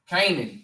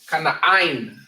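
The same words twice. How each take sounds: First: The name has the familiar English pronunciation. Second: The name has the Hebrew pronunciation. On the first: "Canaan in the Bible" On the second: "But in the Hebrew"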